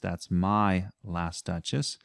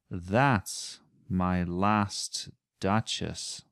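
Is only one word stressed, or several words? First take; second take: one word; several words. First: Only the word my is stressed. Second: Several words carry stress.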